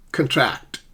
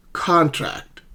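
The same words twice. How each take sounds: First: "contract" with reduced first vowel and stressed TRACT; stress on second syllable. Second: CON punched high in "Contract"; stress on first syllable. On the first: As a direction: lean on the end of "contract". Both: Shown as a demonstration. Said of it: "stress the correct syllable".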